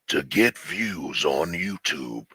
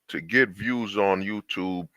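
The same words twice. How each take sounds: First: It is read in a dramatic movie-trailer voice. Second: It is read in a plain, ordinary voice.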